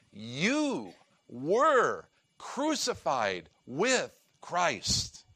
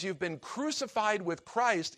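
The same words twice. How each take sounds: First: "You were crucified with Christ" spoken very slowly, each word weighed; slow emphatic declaration. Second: Said in the usual way. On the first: Shown as a demonstration. Preacher driving home that it really happened, slow and weighty. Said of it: "it means this really happened". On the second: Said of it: "it's in a perfect tense".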